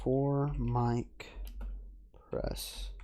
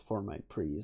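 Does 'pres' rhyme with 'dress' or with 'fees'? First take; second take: dress; fees. First: The word 'pres' rhymes with 'dress'. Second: The word 'pres' rhymes with 'fees'. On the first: The speaker calls it wrong. "I know it's not press, but that's just how I pronounce it" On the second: The speaker calls it right. "It's four mic pre's, I believe"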